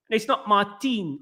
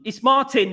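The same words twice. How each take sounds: First: Put-on "Martin" said slowly as "Mar-teen", Swedish accent; Swedish-style pronunciation. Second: Said in the usual way. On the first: Shown as a demonstration. Mocking how a Swede says Martin, slow Swedish "Mar-teen". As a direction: draw "Martin" out slowly, stressing a long "teen". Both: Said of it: "When I say it's not Martin, it's Martin".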